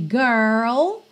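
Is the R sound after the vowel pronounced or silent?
pronounced. It is said in an American accent, R pronounced.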